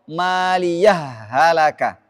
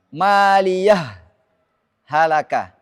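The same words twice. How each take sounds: First: The two words merge without any stop. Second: A brief stop separates the two words. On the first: "Dan boleh dibaca drom" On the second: "sakta juga ada di surah Al-Haqqah ayat dua puluh delapan"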